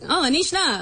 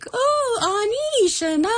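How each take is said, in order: First: It is said in a flat, monotone voice. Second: It is said with a lively, varied melody.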